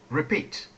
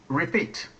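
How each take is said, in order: The two takes are said the same way.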